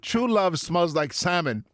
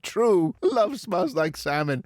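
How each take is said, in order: First: It is said with no pause after true. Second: There is a pause after the word true.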